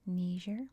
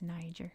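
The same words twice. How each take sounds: First: The first syllable differs from that of Nigeria. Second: The first syllable sounds as in Nigeria. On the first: This is the form used in some variations of English. "in some variations of English it's pronounced Niger" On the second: This is the form used primarily, including in British English. "it's Niger, as in Nigeria"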